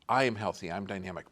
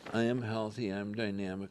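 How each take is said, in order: First: It is said loudly with lively intonation. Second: It is read flatly with little volume. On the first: The speaker calls it right. "Volume and intonation" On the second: The speaker calls it wrong. "you're not reading these affirmations like"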